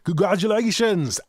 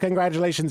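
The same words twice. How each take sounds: First: It is said in a put-on fancy accent. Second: It is said in his normal voice.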